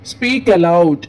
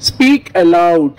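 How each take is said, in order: First: Said in the usual way. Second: Slow and loud, each word drawn out; loud, slow teacher model; slow loud demo. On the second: Shown as a demonstration. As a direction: say it out loud slowly for the class.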